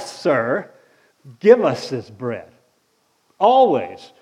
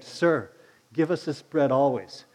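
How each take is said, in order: First: It is said in a sarcastic, mocking tone. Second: It is said in a sincere, respectful tone. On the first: The speakers mock the one they address. The speaker calls it right. "They were saying it sarcastically" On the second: The speakers respectfully ask for the bread. The speaker calls it wrong. "They weren't saying"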